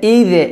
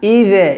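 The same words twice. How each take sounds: The two takes are said the same way.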